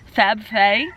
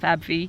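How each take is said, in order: First: The last syllable is said like 'fay'. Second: The last syllable is said like 'fee'. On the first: The speaker calls it right. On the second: The speaker calls it wrong. "I was pronouncing it wrong before, it's not Fab Fee"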